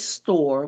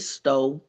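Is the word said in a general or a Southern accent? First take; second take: general; Southern. First: It is said in a general American accent. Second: It is said in a Southern American accent. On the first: "we don't say store" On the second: "I'm from the South, we say stove"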